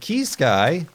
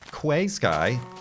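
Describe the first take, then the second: First: The first word sounds like 'key'. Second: The first word sounds like 'kway'. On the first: The speaker calls it right. "Like Key Sky" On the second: The speaker calls it wrong. "up until recently I was pronouncing Quay Sky"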